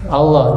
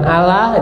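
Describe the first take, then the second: First: The L sound is thick and heavy. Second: The L sound is thin and light. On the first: The speaker calls it right. "Allah itu tafkhim" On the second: The speaker calls it wrong. "bukan Allah"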